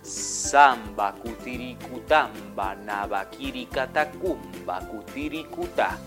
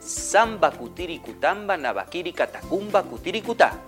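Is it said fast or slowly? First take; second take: slowly; fast. First: It is said very slowly. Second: It is said at a fast pace.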